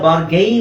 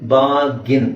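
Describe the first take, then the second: First: The second syllable sounds like 'gain'. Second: The second syllable sounds like 'gin'. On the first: The speaker calls it wrong. "ಬಾರ್ಗೈನ್ ಅಂತ ಅನ್ಕೊಂಡಿದ್ದಾರೆ ತುಂಬಾ ಜನ" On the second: The speaker calls it right. "Correct pronunciation ಬಂದು ಬಾರ್ಗಿನ್"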